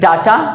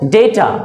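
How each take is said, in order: First: The first vowel sounds like 'ah'. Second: The first vowel sounds like 'ay'. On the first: The speaker calls it wrong. "कुछ लोग कहते हैं डाटा, डाटा नहीं होता है" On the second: The speaker calls it right. "डी ए वाई ओ टी ए"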